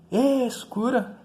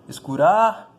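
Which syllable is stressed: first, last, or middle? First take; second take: first; last. First: The stress is on the first syllable. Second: The stress is on the last syllable. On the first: "Não, né?" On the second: "Também não, né?"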